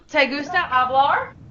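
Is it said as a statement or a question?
question. It is said as a question.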